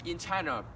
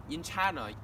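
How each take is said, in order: Both takes have the same delivery.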